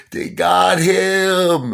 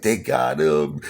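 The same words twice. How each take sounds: First: Loud, high, drawn-out mock wail; imitated hysterical crying. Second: Mild mock wail, held back; imitated crying. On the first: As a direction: wail it slowly like a hysterical mother. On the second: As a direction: begin imitating a distraught mother. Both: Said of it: "hysterical crying".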